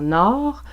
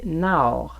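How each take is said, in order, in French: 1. La voyelle est un seul son o ouvert. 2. La voyelle commence comme a et glisse vers le haut. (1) "le O ouvert comme dans nord" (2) "un peu un A en début de voyelle et tendre vers le haut"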